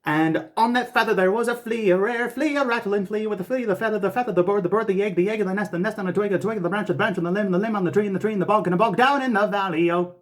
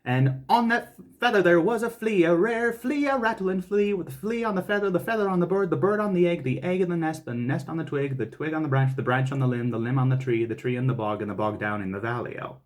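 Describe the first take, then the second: First: High, quick, no pause for breath; all in one breath. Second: High, slow, careful recitation; slow and deliberate. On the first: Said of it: "try to do it in one breath". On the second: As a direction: take it slow, word by word. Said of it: "then we'll do it slow". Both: Shown as a demonstration.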